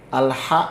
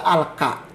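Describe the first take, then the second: First: The syllable is said with an H sound. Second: The syllable is said with a K sound. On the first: The speaker calls it right. "Harusnya eh, dibaca al-ha" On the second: The speaker calls it wrong. "dia baca al-ka"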